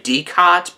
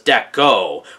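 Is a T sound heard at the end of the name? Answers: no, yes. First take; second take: yes; no. First: The final T sound is pronounced. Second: The final T sound is silent. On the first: The speaker calls it wrong. "I actually thought it was pronounced Decot" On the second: The speaker calls it right. "with the T at the end being a silent T"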